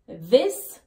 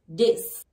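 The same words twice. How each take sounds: First: The first sound is a voiced 'th'. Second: The first sound is a 'd'.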